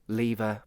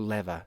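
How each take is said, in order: First: The first vowel sounds like 'lee'. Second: The first vowel sounds like 'leh'. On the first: "Is it lee" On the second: "or le?"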